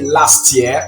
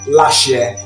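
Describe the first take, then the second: First: A clear t sound ends the first word. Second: The words join with a sh sound. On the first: "with a T at the end of the word" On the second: "they're going to have the sound sh"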